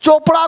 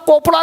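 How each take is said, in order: First: The word begins with a ch sound. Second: The word begins with a k sound. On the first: The speaker calls it right. "चोपड़ा को" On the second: The speaker calls it wrong. "कोपड़ा नहीं पढ़ेंगे"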